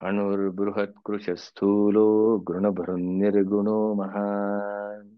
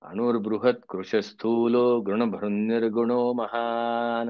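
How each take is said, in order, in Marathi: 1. श्लोक पूर्णपणे आणि निवांतपणे म्हटला आहे. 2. श्लोक पटापट उरकून म्हटला आहे. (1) "शेवटचं आहे रे बाबा" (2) "असं उलकू नको"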